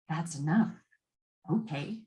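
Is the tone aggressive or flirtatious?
flirtatious. It is said in a flirtatious, playful tone.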